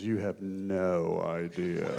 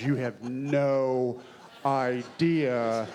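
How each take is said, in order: First: Low, slow, ominous delivery of the line; Jeremy Irons line. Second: "You have no idea" spaced out slowly, each word weighted; slow emphatic repeat. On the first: Retold or imitated. Actor quotes Jeremy Irons's line, low and slow. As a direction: let it drop low and slow with menace. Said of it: "he looks at him and goes". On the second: Shown as a demonstration. Actor repeats the line slowly to stress how strange. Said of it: "That's how strange".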